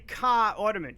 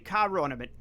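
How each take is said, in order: First: No r sound links the two words. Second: An r sound links the two words. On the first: The speaker calls it wrong. "you wouldn't say" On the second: The speaker calls it right. "you'd say ... they will throw in a connecting R"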